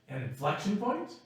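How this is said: It is said as a questioning phrase. It asks whether it is so. "I turned it into a question by the inflection in my voice"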